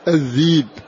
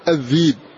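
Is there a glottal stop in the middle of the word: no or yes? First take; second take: no; no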